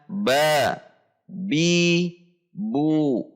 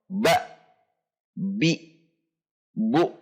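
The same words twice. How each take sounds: First: Each syllable ends openly with no catch. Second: Each syllable ends with a glottal catch. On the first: The speaker calls it right. "tetapi dibaca" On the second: The speaker calls it wrong. "tidak menambahkan akhiran hamzah pada setiap bacaan. Contoh"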